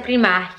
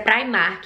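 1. O nome é dito como se diz localmente. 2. O nome é dito como alguns outros lugares dizem. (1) "mas aqui na Holanda a pronúncia é" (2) "Tem alguns lugares que a a pronúncia é"

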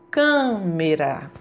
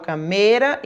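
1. O acento cai na primeira sílaba. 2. O acento cai depois da primeira sílaba. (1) "Eu falo câmera. o cã foi pronunciado de forma mais forte" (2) "eu não falo câmera"

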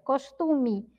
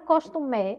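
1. A vogal final soa como 'ee'. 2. A vogal final soa como 'eh'. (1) "é costume. Parece que tem uma letra I" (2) "termina com E, mas nós não pronunciamos, não é costume"

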